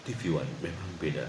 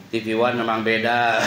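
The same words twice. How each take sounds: First: Low, soft tagline read; deep announcer voice. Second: Laughing. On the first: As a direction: deliver the slogan like a station ident. (suara penyiar yang berat dan pelan) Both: Shown as a demonstration. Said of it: "Nggak mungkin saya ngomongnya kayak gini".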